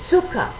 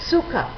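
Both takes have the same delivery.

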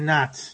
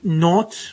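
First: The vowel is an open American A sound. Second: The vowel is a rounded British O sound. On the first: "we would say not" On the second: "instead of saying not"

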